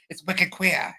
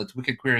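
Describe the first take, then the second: First: A quick, self-mocking stab at a Boston accent, higher; half-hearted Boston accent that doesn't quite land; attempted Boston accent. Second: Said in the usual way. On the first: Shown as a demonstration. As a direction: drop the r in "Queer" like a Bostonian, "Wicked Queeah". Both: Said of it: "I can't do a Boston accent".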